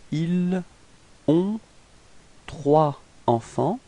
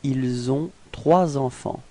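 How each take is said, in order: First: The words are said without linking sounds. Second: The words are joined with two linking sounds. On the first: "if we didn't make the liaison first" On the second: "if we make the liaison"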